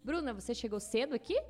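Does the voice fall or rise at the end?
rise. It ends with a rising question tune.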